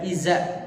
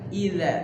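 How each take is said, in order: First: The middle consonant is a z sound. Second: The middle consonant is a th sound. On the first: The speaker calls it wrong. "jangan dibaca iza... ke z, itu salah" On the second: The speaker calls it right. "Cukup ujung lidah diapit oleh... dua gigi seri"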